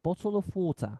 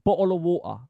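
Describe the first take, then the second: First: It is said in a standard British accent. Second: It is said in a British street accent. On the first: "we've got the straight pronunciation" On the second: "the um, street pronunciation"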